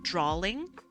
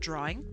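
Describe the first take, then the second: First: An L sound comes before the -ing ending. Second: No L sound comes before the -ing ending. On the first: "people used to say the word drawling, like D R A W L I N G" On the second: "instead of drawing"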